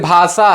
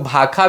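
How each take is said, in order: First: The middle consonant is a 'sh' sound. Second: The middle consonant is a 'kh' sound. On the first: This is the standard form with the retroflex sibilant. "तालव्य स मूर्धन स ... जैसे लिखल कैसे जाला" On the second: This is the simplified Nagpuri form. "ख के रूप में लिखे कर प्रचलन ... भाखा भी हम लोग बोलते हैं"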